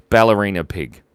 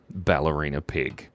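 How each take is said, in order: First: Louder, punchy announcement of the winner; announcing. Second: Said in the usual way. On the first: Real, not acted. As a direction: call out the winner. Reading out the winning poll choice.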